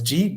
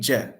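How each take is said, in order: First: The vowel sounds like a clear 'ee'. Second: The vowel sounds more like an 'eh'. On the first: "So it's ji" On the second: "pronounce it kind of more of je"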